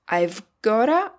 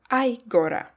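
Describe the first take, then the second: First: The 've sound is heard before gotta. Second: The 've sound is dropped before gotta. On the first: "have can be present" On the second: "or can disappear"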